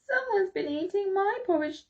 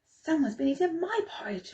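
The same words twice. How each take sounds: First: It is said in a wee little voice. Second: It is said in a medium voice. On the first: "in his wee little voice" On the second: "cried in her medium voice"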